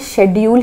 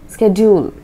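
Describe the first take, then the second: First: The word begins with an sh sound. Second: The word begins with an sk sound. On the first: This is the British pronunciation. "ये शेड्यूल ही बोलेंगे" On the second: This is the American pronunciation. "American English के हिसाब से ये वाला part स्क"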